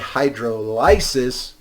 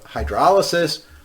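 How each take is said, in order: First: The 'lysis' part is said as a distinct word. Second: The 'lysis' part is blended into the word. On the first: It reminds you that something is being lysed. "I'd suggest that you say hydrolysis so you remember you are lysing something" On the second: This is the common way people say it. "Generally, people say"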